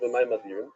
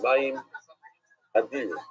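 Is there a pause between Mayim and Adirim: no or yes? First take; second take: no; yes. First: The two words run together without a pause. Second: There is a pause between the two words. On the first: The waters themselves are great. The speaker calls it wrong. "Like most people read it" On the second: The waters and the great one are separate ideas. The speaker calls it right. "he even says to pause between the Mayim and Adir"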